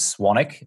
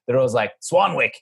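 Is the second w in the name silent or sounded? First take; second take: silent; sounded. First: The second w is silent. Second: The second w is pronounced. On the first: The speaker calls it right. "the actual pronunciation of my last name is Swanwick. There's a silent second W" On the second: The speaker calls it wrong. "Americans just don't understand that. So they're always like Swanwick"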